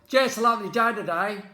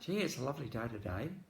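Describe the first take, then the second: First: It is said in a sincere, believable tone. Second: It is said in a sarcastic, doubtful tone. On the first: The speaker really thinks it is a lovely day. "you're going to believe the later one" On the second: The speaker does not really think it is a lovely day. "You might be sarcastic or cynical about it"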